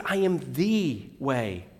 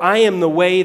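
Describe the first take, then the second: First: "the" said as "thee", soft and slow; slow soft emphasis on the. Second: "am" punched louder and higher; stress on am. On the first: Preacher quoting Jesus, softly stressing "the". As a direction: lean gently on "the", slowly and quietly. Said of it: "He said". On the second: Preacher quoting Jesus, driving home "am". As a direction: hit the word "am" hard and high. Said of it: "He didn't say". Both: Shown as a demonstration.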